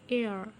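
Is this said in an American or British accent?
American. It is said in an American accent.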